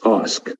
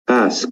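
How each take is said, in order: First: It is said with a British vowel sound. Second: It is said with an American vowel sound. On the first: "In British English it's ask" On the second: "In American English we say ask"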